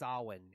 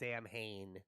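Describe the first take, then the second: First: It is said like 'sow-in'. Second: It is said like 'sam-hane'. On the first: The speaker calls it right. "It's actually pronounced Samhain" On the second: The speaker calls it wrong. "It's not pronounced Sam Hain"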